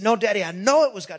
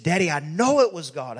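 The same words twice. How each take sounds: First: Higher, quick retold child's protest; acted boy pressing his point fast and high; urgent insistence. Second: Lightly acted earnest child, firm on "know"; a touch of childlike conviction; earnest insistence. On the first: Retold son insists more urgently. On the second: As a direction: retell a boy's first sincere insistence. Retold son earnestly insists to father.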